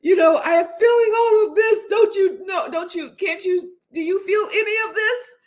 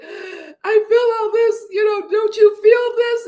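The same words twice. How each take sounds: First: Pitched much higher, pleading and teary; retold movie scene, imitating a crying plea; imitating a tearful plea. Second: Much higher and louder, slow sobbing plea; retold movie heroine crying out in the taxi; imitating a tearful cry. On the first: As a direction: play the heartbroken woman begging him to feel it. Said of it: "crying in a mess". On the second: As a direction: wail it like she's breaking down in the taxi. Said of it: "she's like".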